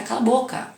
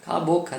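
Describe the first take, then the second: First: "cala a boca" snapped higher, scolding; imitated scolding "cala a boca"; mock harsh shush. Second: Said in the usual way. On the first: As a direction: shut the child up curtly, imitating the adult. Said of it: "alguém falando".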